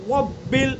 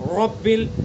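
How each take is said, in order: First: The word begins with a w sound. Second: The word begins with a clear r sound. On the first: The speaker calls it wrong. "वाव बन जाए वब्बिल, ऐसे करते हमने" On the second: The speaker calls it right. "ये हो जाएगा इस तरह से"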